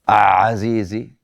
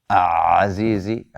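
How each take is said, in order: No difference in how they are said.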